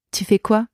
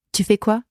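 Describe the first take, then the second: No difference in how they are said.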